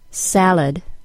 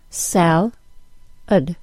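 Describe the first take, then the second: First: The word is said as one smooth unit. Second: The word is split into separate syllables. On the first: "I'll say the word as a whole unit first" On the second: "then I'll break it into syllables"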